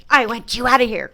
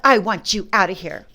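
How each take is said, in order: First: Loud, right-behind-your-head demand; yelled at her back. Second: Retold demand. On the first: Retold or imitated. Sister-in-law yelling behind her head as she walks off, loud. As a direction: yell it at someone walking away. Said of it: "she's coming up behind me going". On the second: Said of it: "She said".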